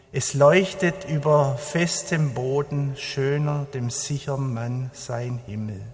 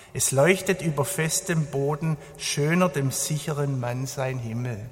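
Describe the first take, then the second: Both takes have the same delivery.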